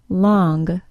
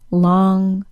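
First: The word ends with an added hard G. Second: The word ends in a plain NG sound. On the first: The speaker calls it wrong. "accidental G sound added to the NG sound" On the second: The speaker calls it right.

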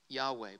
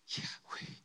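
First: The word is voiced with full vowels. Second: The word is breathed without voiced vowels. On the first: The speaker calls it wrong. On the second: The speaker calls it right.

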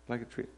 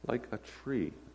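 First: It is said fast. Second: It is said slowly.

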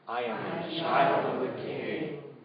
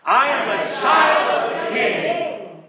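First: It is said aloud, a little louder. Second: It is said as loud as possible.

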